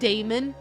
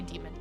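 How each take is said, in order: First: The first vowel sounds like 'day'. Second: The first vowel sounds like 'dee'. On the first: The speaker calls it wrong. "I pronounce it daemon" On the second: The speaker calls it right. "you're actually supposed to say demon"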